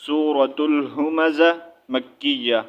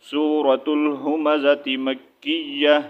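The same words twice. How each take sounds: First: سورۃ الہمزہ مکیہ read slowly with a pause, الہمزہ ending cut off; read separately. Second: سورۃ الہمزہ مکیہ read joined, الہمزہ linked with t into مکیہ. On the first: Teacher shows stopping before مکیہ, slow. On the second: Teacher shows joining the words, slow. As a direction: glide الہمزہ straight into مکیہ, no break. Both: Shown as a demonstration. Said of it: "اگر ملا کے پڑھیں".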